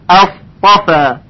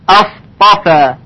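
No difference in how they are said.

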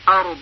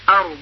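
First: The word ends with a clear final consonant. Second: The same.

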